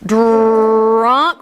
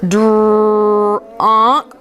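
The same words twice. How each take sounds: First: Put-on Drunk said in one quick run; quicker blend. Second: Dr-unk said in stretched parts, the onset held apart; stretched word. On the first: Teacher blending the word quicker for the class. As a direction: blend Drunk together faster. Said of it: "A little quicker". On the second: Teacher stretching a word for the class to blend. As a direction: stretch Dr-unk slowly sound by sound. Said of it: "we're gonna stretch these words". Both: Shown as a demonstration.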